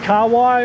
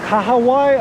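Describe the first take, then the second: First: It uses the pronunciation the speaker grew up with. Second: It uses the standard, accepted pronunciation. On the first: The speaker calls it wrong. "I grew up different, just learned it differently" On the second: The speaker calls it right. "I believe, is the correct pronunciation"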